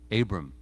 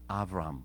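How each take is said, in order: First: The name is said the English, Western way. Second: The name is said the non-English, original way.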